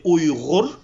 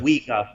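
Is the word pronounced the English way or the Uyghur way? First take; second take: Uyghur; English. First: It is said with native Uyghur pronunciation. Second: It is said with Western English pronunciation. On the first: "in my language, you would say" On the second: "in the Western English, uh, they normally say"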